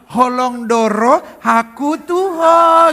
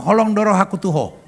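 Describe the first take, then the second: First: It is said in a sweet, sugary way. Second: It is said bluntly and plainly. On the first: The speaker calls it wrong. "nggak boleh dimanis-manisin, nggak bisa gini" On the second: The speaker calls it right. "Orang Batak kalau ngomong"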